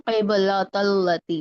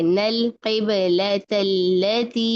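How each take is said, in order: First: क़िबलतल्लती with heavy "tol-la"; thick lam. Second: Slow क़िबलतल्लती with light "tel-le"; spread thin lam. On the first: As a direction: darken and round the Ls in क़िबलतल्लती. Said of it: "ये मोटा नहीं करना". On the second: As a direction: stretch each thin L in क़िबलतल्लती. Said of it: "इस तरह से". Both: Shown as a demonstration.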